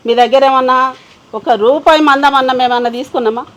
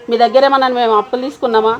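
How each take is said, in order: First: Louder, heated demand; indignant outburst; angry repeat. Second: Said in the usual way. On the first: Acted. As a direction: throw the question back at them, louder. Angry woman confronting creditors.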